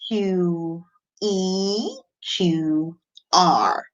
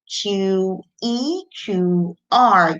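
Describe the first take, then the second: First: It is said at a slower, steady pace. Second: It is said at a faster, quicker pace. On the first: "So let's go again" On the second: "Can we go faster now?"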